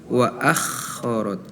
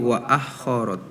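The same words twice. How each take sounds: First: The kh is a rasping throat sound. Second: The kh sounds like a plain h. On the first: The speaker calls it right. "yang harusnya wa akhorot" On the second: The speaker calls it wrong. "terdengar seperti huruf H"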